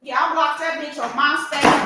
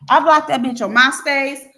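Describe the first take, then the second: First: Said in the usual way. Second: "blocked" hit louder; a louder, emphatic repeat of "blocked"; stress on blocked. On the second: Real, not acted. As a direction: punch the word "blocked" with finality.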